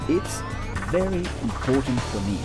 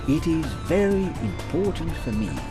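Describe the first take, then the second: First: "It is" is contracted to one syllable. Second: "It is" is said as two full words.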